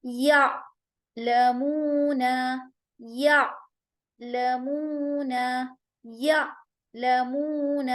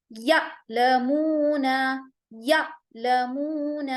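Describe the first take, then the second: First: یا لمون with a smooth, gentle ain; soft ain, no jolt. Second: یا لمون with a hard jerk on the ain; harsh ain, the error; wrong jolted ain. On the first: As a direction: ease the ain softly in یا لمون. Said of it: "جبکہ ہمیں یہاں جھٹکا نہیں دینا ہے". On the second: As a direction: show the common mistake: jolt the ain. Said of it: "یہاں پر ہم جھٹکا دے رہے ہیں". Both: Shown as a demonstration.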